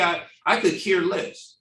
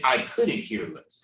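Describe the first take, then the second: First: Says "I could care less" as the common mistake; "I, I could care less" said casually, as people misuse it; wrong phrasing. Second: "I couldn't care less" said lower and softer, stressing couldn't; correct phrasing. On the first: To the host, quoting the misused saying as plain phrasing. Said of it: "You know how people say". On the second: Correcting the saying to the host, couldn't stressed low. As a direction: land "couldn't" firmly, falling at the end. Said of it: "the saying is". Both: Shown as a demonstration.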